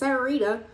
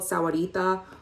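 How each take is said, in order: First: The name is said in a shortened form. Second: The name is said in its full form. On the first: "or as some people pronounce it" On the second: "which is called Sahuarita"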